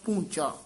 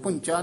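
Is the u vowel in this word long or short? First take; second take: long; short. First: The u vowel is said long. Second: The u vowel is said short. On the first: The speaker calls it right. "दलैंकड़ ला के दीर्घ उच्चारण करना" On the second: The speaker calls it wrong. "पूंचा नहीं कहना"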